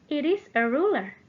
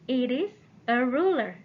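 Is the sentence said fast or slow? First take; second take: fast; slow. First: The sentence is said at a faster pace. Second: The sentence is said at a slower pace.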